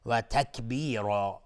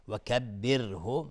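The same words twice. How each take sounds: First: Slow, loud «و تکبیرا» with a heavy, rounded R; thick ra. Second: Slow recited «و کبره» with a light R; thin ra. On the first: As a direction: draw out «تکبیرا», darkening the final "ro". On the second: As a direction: draw out «و کبره», keeping R thin. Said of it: "را در کبره ترقیق است". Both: Shown as a demonstration.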